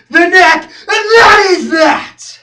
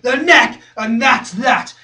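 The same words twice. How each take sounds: First: Slow, high, full-force yell; drawn-out roar rising in pitch; climactic shout. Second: Loud, then settling; punchy, decisive close; firm conclusion. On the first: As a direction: scream each word as the final verdict. Climax of rant. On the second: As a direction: state it hard and be done. First take of conclusion. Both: Acted.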